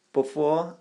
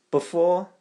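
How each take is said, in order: Both takes have the same delivery.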